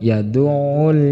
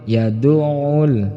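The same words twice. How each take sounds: The two takes are said the same way.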